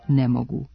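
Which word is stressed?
ne. The accent falls on "ne".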